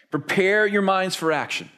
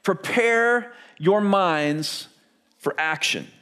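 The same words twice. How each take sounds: First: Said in the usual way. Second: Very slow, each word weighed; scripture read slowly for the congregation; slow emphatic reading. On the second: Shown as a demonstration. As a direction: read it out slowly, letting it land. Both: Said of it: "look at what he says".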